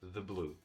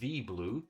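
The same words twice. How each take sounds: First: 'The' is said weakly with a schwa. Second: 'The' is said fully, slower and stressed. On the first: "If it's blue, I say the blue" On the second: "when you speak very slowly or you're trying to put more stress onto it"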